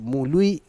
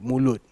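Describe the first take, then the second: First: The vowel is drawn out with a lilting tune. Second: The word is said plainly without a lilt.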